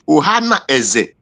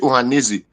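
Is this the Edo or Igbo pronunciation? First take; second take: Edo; Igbo. First: It is said the Edo way, split apart. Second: It is said the Igbo way, run together. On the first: "if we the Edo call it Ohana Eze" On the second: "when they say Ohaneze"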